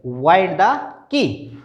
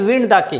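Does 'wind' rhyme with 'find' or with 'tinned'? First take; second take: find; tinned. First: The word 'wind' rhymes with 'find'. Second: The word 'wind' rhymes with 'tinned'. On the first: The watch is being wound with a key. The speaker calls it right. "घड़ी में चाबी देने को वाइंड बोलेंगे" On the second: It talks about air, not winding. The speaker calls it wrong. "ना कि विंड the key"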